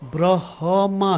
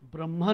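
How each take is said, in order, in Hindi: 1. h की आवाज़ m की आवाज़ से पहले आती है। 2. m की आवाज़ h की आवाज़ से पहले आती है। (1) "ब्रह्मा है" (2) "ब्रह्मा नहीं है"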